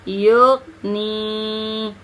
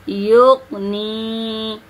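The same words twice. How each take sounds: The two takes are said the same way.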